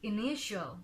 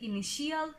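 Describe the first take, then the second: First: The ending is one short 'shul' syllable. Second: The ending is two syllables, like 'shee-al'. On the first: The speaker calls it right. "Correct প্রোনাউন্সিয়েশনটা হচ্ছে initial" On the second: The speaker calls it wrong. "তাহলে আমাদের উচ্চারণটা ভুল হয়ে যায়"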